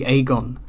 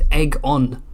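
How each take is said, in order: First: The first syllable sounds like 'ay'. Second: The first syllable sounds like 'egg'. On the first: The speaker calls it right. "A E is A. It should be Aegon" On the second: The speaker calls it wrong. "I can't stand Aegon. it's just egg on"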